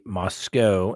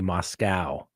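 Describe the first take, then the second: First: It is said with a British pronunciation. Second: It is said with an American pronunciation. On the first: "the British say Moscow" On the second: "Americans say Moscow"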